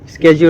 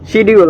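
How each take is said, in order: First: The word begins with an 'sk' sound. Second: The word begins with a 'sh' sound. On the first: The speaker calls it right. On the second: The speaker calls it wrong.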